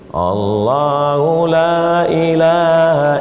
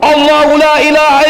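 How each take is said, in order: First: It is recited softly and weakly. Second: It is recited loudly and forcefully. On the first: The reader does not seem serious. The speaker calls it wrong. "baca slow" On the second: The reader is serious about it. The speaker calls it right. "saya bacakan di telinga kanan dia kuat"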